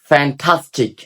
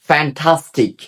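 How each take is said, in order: The two takes are said the same way.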